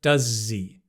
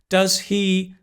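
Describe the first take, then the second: First: The h at the start of 'he' is dropped. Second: The h at the start of 'he' is pronounced. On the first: "the H of he usually disappears in more natural English" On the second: "this is the way we learn at school"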